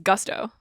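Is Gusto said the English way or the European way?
English. The word is said with an English pronunciation. "I think it's Gusto. Like you have Gusto"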